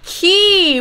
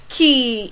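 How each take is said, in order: First: The word is said with a falling tone. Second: The word is said with a low tone. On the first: It means poop. "key with falling tone is ปูปู" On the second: It means to ride. "This is should be low tone นะคะ ขี่ is to ride"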